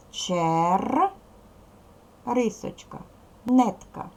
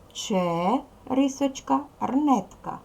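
First: "Чер" held on a rolled R, break, then "нетка"; поділ для переносу. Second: "Ч" as a drawn-out "че", break, then "рнетка"; поділ для переносу. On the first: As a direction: split it after the R: чер, рисочка, нетка. ("Чер, рисочка, нетка" з паузою після Р) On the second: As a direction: split it before the R: че, рисочка, рнетка. ("Ч, рисочка, рнетка" з паузою перед Р) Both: Shown as a demonstration. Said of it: "Поділи на склади для переносу".

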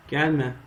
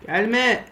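First: Said in the usual way. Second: Gelme yelled high and loud; shout. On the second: Real, not acted. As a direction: scream Gelme at the mob. Telling mob away. (bağırarak gelme)

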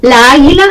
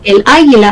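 First: "La águila" with a long doubled a; wrong-article example. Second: Said in the usual way. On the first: Shown as a demonstration. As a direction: stretch the a's together in "La águila". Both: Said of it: "no, el águila".

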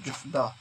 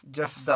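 First: जुफदा with a short "u" in the first syllable; variant pronunciation. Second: Said in the usual way. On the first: Shown as a demonstration. Teacher showing how some people say frog, जुफदा with "juf". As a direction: say जुफदा starting "juf", not "jaf". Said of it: "कुछ लोग बोलते हैं जुफदा". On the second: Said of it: "और कुछ लोग बोलते हैं".

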